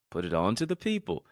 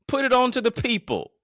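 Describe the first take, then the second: First: Said in the usual way. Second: High, loud proclaiming call; big loud preacher delivery; loud preaching shout. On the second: Acted. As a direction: belt it to the crowd. Repeats line loud, then calm.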